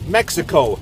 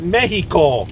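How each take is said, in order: First: It is said with an English pronunciation. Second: It is said with a foreign pronunciation. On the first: The speaker calls it right. "In English, we say" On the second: The speaker calls it wrong. "not Mexico"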